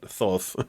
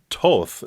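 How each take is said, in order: First: It begins with a TH sound. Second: It begins with a plain T sound. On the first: The speaker calls it wrong. "not Thoth" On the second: The speaker calls it right. "this is pronounced Toth, First H is silent"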